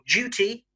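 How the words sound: It is said in a British accent. "in British English"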